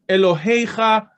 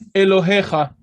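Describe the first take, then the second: First: The 'he' syllable has an 'ey' diphthong. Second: The 'he' syllable has a plain 'e' vowel. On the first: "if you hear people pronouncing it Elohecha"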